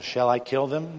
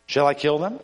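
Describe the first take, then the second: First: Said in the usual way. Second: "Shall I kill them?" with a sharp rise at the end; eager asking, voice swinging up on "them"; insistent question. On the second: A narrator's reading. King repeats his question, more insistently.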